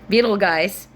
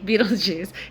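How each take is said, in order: First: The name ends with a hard 'guys' sound. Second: The name ends with a soft 'juice' sound. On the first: The speaker calls it wrong. "It's spelled like Beetle guys" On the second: The speaker calls it right. "but you pronounce it like Beetlejuice"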